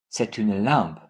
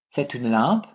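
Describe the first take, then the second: First: Settled, low fall on "lampe"; falling intonation. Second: "lampe" swept upward as a question; questioning upswing on "lampe"; rising intonation. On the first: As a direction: lower statement, falling on "lampe". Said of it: "with falling intonation". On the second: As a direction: ask it by raising the end of "lampe". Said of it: "pronounced like a question with raising intonation". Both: Shown as a demonstration.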